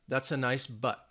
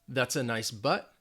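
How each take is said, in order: The two takes are said the same way.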